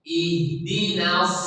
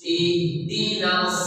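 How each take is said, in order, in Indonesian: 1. Suku kata terakhir memiliki vokal 'a' yang terbuka. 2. Suku kata terakhir memiliki vokal 'a' yang terbuka.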